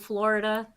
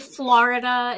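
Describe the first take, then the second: First: It is said with a general, non-regional accent. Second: It is said with an East Coast accent. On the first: "instead of" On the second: "we say"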